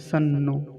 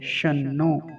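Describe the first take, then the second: First: The word begins with a plain 's' sound. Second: The word begins with a palatal 'sh' sound. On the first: The speaker calls it wrong. "कुछ लोग ऐसे उच्चारण करते हैं, सन्नो। तो सन्नो ये वाला उच्चारण गलत है" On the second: The speaker calls it right. "ये वाला उच्चारण सही है, शन्नो"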